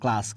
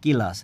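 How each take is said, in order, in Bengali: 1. শুরুর ব্যঞ্জনগুলো একসাথে, একটি গুচ্ছ হিসেবে বলা হয়। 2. শুরুর ব্যঞ্জনগুলোর মাঝে একটি স্বরধ্বনি ঢোকানো হয়।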